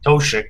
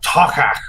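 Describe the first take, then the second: First: The middle consonant is a soft 'sh' sound. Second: The middle consonant is a hard 'k' sound. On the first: This is not how the makers say it. "they don't say it as Toshik" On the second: This is how the makers say it. "they call it Tokak or something like that"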